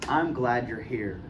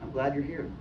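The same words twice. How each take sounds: First: It is said in a warm, sincere tone. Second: It is said in a flat, uninterested tone. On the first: The speaker truly welcomes the listener. "sincere and open" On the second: The speaker does not really care. "looking away flat"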